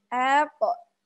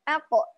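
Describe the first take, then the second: First: The opening vowel is drawn out too long. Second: The opening vowel is kept short. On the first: The speaker calls it wrong. "Jadi harokat hamzahnya kepanjangan" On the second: The speaker calls it right. "harusnya satu harokat aja"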